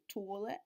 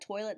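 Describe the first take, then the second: First: It is said in an Eastern Shore Maryland accent. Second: It is said in a general American accent.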